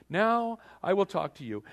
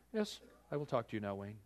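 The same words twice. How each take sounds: First: Higher and louder, grand permission; king granting audience, high and loud; mock royal grant. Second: Quiet kingly permission. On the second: Retold or imitated. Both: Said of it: "he would hold out his golden scepter and he would say".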